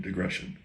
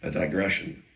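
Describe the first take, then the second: First: "digression" whispered, much softer; whispered word. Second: "digression" said out plainly, testing it; testing the word aloud. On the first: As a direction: breathe "digression" to yourself. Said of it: "Yes, that's a word". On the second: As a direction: say "digression" as if checking it's real. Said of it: "Is that a John word?". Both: Shown as a demonstration.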